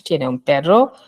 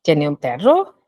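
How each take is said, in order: First: "Tiene un perro" as a statement, pitch falling on "perro"; flat statement. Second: "Tiene un perro" as a question, pitch rising on "perro". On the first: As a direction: say "Tiene un perro" as a plain fact, falling at the end. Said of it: "is declarative". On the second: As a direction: ask "Tiene un perro" with the voice going up at the end. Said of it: "rising intonation". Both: Shown as a demonstration.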